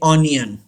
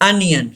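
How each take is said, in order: First: The first vowel sounds like 'aw'. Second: The first vowel sounds like 'uh'. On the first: The speaker calls it wrong. "Don't say ऑनियन। ... गलत pronounce करते हैं।" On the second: The speaker calls it right. "The actual pronunciation of this word अनियन।"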